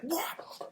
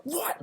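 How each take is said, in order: First: Breathy shocked what, very high; stunned unvoiced What?. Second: High, voiced What? of disbelief; squeaky stunned What?; shocked what. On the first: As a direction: gasp the word What? in disbelief, pitched way up, no voice. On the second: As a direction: say What? very high with full voice, baffled.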